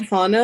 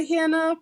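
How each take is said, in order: First: "Hannah" as HAH-nuh, a as in father; HAH-nuh pronunciation. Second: "Hannah" as HAN-uh, a as in cat; HAN-uh pronunciation. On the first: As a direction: say "Hannah" with an open ah. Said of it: "I think she wants to be". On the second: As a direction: say "Hannah" with the short a of hand. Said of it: "called Hannah, I guess". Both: Shown as a demonstration.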